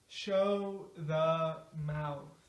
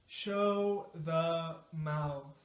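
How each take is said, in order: The two takes are said the same way.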